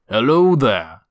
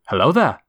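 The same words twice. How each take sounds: First: It imitates old Obi-Wan's voice. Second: It imitates young Obi-Wan's voice.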